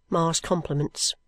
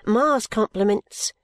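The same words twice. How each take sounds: First: Slower, sulky falling Ma's compliments. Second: Higher, slow formal message from Ma; girl's voice delivering message. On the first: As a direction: drop it sulkily, dragging the words. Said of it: "sulkily enough". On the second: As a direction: recite the message slowly, a little higher. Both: A narrator's reading.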